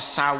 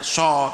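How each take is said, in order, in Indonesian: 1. Vokalnya meluncur dari a ke u yang dibulatkan. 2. Vokalnya adalah satu bunyi o biasa. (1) "tapi sau" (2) "tidak so"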